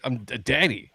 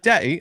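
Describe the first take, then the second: First: Said in the usual way. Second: Higher imitated British child voice; mock-British little girl; Peppa Pig accent. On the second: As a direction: mimic a kid talking cartoon British. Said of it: "Peppa Pig accent".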